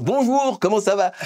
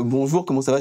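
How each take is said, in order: First: Mock eructation, high and emphatic; demonstrated loud blurting. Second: Said in the usual way. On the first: Shown as a demonstration. Pastor shows what éructer means, speaking very loudly. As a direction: belt out the greeting, pitched way up. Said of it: "je vais parler très fort". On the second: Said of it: "au lieu de dire".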